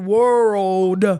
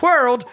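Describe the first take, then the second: First: The vowel is drawn out longer. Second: The vowel is short and clipped. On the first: The speaker calls it right. "it was supposed to be world. Like I had to drag it out more" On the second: The speaker calls it wrong. "I kept doing it wrong"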